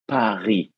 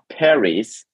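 First: The final s is silent. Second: The final s is pronounced. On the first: The speaker calls it right. "but Paris" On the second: The speaker calls it wrong. "You don't pronounce the last letters. It's not Paris"

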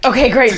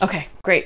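First: It is said with more enthusiasm. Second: It is said flatly, without enthusiasm.

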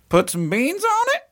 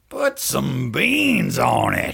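First: It is said in a questioning tone. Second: It is said in an angry tone.

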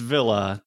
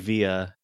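First: The word is pronounced the plain English way. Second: The word is pronounced the Italian way. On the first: "It's Villa" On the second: "They say Via. Giorno Giovanna would yell at me if I didn't pronounce it that way"

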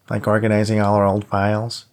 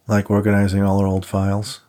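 First: It is said in a whiny voice. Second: It is said in a plain voice.

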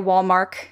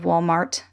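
First: The final t sound is dropped. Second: The final t sound is pronounced. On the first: This is how the grandfather says it. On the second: This is the usual way to say it.

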